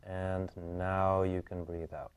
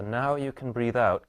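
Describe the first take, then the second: First: Slow, drawn-out release cue; slow breathing cue. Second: Said in the usual way. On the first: Real, not acted. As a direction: ease the client into the exhale, slowly. Releases client's held inhale, slowly.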